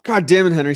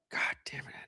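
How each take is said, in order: First: Loud, rising exasperated curse; exasperated outburst. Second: Hushed, breathy whisper under the breath; whispered curse. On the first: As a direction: blurt it out, fed up. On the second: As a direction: mutter it as a hidden whisper. Muttered curse at Henry. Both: Real, not acted.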